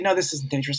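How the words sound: It is said angrily and forcefully.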